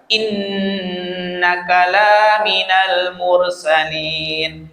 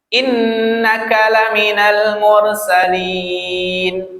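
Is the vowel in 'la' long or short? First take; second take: long; short. First: The vowel in 'la' is held twice as long. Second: The vowel in 'la' is held briefly. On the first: He is not a messenger who was sent. The speaker calls it wrong. "kalau la di sana dibaca dua harokat" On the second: He is truly one of the messengers sent. The speaker calls it right. "La di sana dibaca satu harokat"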